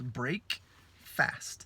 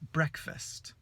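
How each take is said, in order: First: It is said as two separate words. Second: It is said as one joined word. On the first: It means to break the fast. "quando são separados" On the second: It means the morning meal. "quando se junta numa palavra"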